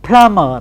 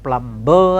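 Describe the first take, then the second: First: "plumber" with silent b, "plama"; "plumber" without any b sound; correct plumber. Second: "plumber" with the b sounded, plum-ber; "plumber" with a clear b, mistaken form; wrong plumber with b. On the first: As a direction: say "plumber" as plum-a, no b. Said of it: "It is plumber, not plumber". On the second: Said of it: "not plumber, as we very often say". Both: Shown as a demonstration.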